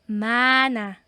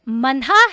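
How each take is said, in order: First: No h sound is heard in the middle. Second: An h sound is heard in the middle. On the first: The speaker calls it right. "silent siya" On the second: The speaker calls it wrong.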